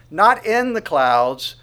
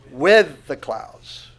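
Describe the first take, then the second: First: "Not" stretched, slow and loud, setting up a contrast; stress on not. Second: "with" held long and loud, very slow, the correcting word; stress on with. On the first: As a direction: push hard on "Not in the clouds", slowly. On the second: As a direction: lean on "with", drawn out and slow. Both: Shown as a demonstration.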